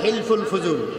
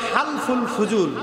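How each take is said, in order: First: The first word begins with the sound 'hel'. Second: The first word begins with the sound 'hal'. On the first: This is how it is written in Bangla. The speaker calls it wrong. "বাংলায় লেখে হেলফুল ফুজুল" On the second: This is how it should be pronounced. The speaker calls it right. "কিন্তু এটার উচ্চারণ হবে হালফুল ফুজুল"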